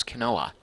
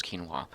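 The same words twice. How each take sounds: First: "quinoa" said as kuh-NO-uh; another's pronunciation. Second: "quinoa" said as KEEN-wah; own pronunciation. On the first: Retold or imitated. Streamer relaying a viewer's guess, "quinoa" pronounced kuh-NO-uh. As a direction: say "quinoa" with a kuh start and stressed NO, kuh-NO-uh. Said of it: "says he thought it was". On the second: Shown as a demonstration. Streamer settling the pronunciation debate, "quinoa" as KEEN-wah. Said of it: "I'm pretty sure it's".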